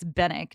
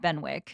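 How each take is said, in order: First: The name is said without a w sound. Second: The name is said with a w sound. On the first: The speaker calls it right. "apparently it's Bennick" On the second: The speaker calls it wrong. "not Benwick"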